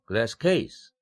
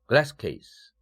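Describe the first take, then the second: First: The stress falls on the second word. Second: The stress falls on the first word. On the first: It is a box made of glass. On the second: It is a box for holding glass.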